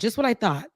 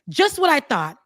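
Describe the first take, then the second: First: It is read flatly, without much feeling. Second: It is read with strong, heated feeling.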